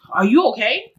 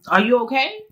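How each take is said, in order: First: Mildly concerned check-in; sincere concern. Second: Lightly sarcastic check-in; mock concern. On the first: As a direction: ask it for real, without sarcasm. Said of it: "like, for real". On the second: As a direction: ask as a teasing challenge. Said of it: "like, to be funny". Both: Shown as a demonstration.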